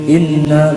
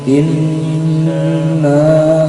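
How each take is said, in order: First: The nasal n sound is cut short. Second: The nasal n sound is held for longer. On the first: The speaker calls it wrong. "bukan inna, bukan, tapi lebih ditahan lebih lama lagi" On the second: The speaker calls it right. "maka bacanya ditahan. Inna seperti itu"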